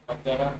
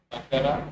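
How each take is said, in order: Both takes have the same delivery.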